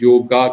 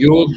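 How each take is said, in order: First: The word ends with an added a vowel. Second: The word ends on the consonant g. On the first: The speaker calls it wrong. "हमने योगा कर दिया" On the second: The speaker calls it right. "योग कहने के बजाय"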